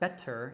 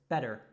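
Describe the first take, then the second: First: The middle T is a clear, crisp T. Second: The middle T is a soft flap. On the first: The speaker calls it wrong. "it's not" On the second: The speaker calls it right. "we have that American T"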